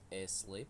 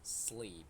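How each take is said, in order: First: An extra vowel sound comes before the s. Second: The word begins directly with the s sound. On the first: The speaker calls it wrong. "it is not a sleep" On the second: The speaker calls it right. "it is sleep"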